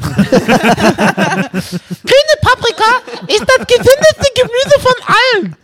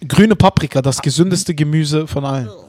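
First: It is said in a put-on voice. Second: It is said in his normal voice.

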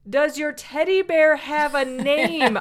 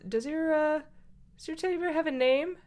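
First: The question is said more loudly. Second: The question is said at normal volume.

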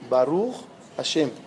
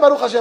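First: It is said sincerely, with heartfelt meaning. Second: It is said mechanically, as a mere routine.

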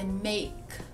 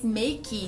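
First: It is said with an English-style pronunciation. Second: It is said with a Portuguese-style pronunciation. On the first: The speaker calls it right. "Mas é make" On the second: The speaker calls it wrong. "A gente tá acostumado em falar em português make"

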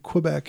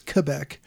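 First: It is said the usual American way. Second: It is said the local French-Canadian way. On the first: The speaker calls it wrong. "We typically want to pronounce it Quebec here" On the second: The speaker calls it right. "but it's Quebec"

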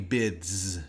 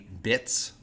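First: The word ends in a voiced dz sound. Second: The word ends in a voiceless ts sound. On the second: "Because Z is voiced and T is unvoiced"

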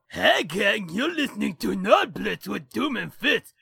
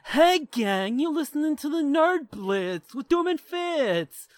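First: It is a Captain Caveman cartoon voice. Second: It is a Funky Phantom cartoon voice.

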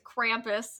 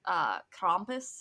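First: It is said with an American pronunciation. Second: It is said with a German pronunciation. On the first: "the American way to say it is Krampus" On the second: "everything I looked at pronounced it more like Krampus"

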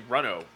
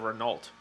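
First: It is said with a French pronunciation. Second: It is said with an American pronunciation. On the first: The speaker calls it right. "I knew how to say Renault" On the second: The speaker calls it wrong. "instead of Renault"

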